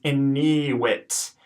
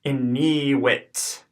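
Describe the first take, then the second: First: "iniwit" at normal pace; first take of "iniwit"; modelled Latin word. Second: "iniwit" slowly with a long middle ee; slow echo of "iniwit"; slow Latin pronunciation. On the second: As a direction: stretch "iniwit" out. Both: Shown as a demonstration. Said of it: "The one in the middle is long".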